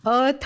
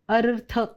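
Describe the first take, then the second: First: The r sound is dropped from the word. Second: The r sound is clearly pronounced in the word. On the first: The speaker calls it wrong. "अथ म्हणू नको हां" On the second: The speaker calls it right. "रचा उच्चार स्पष्ट पाहिजे"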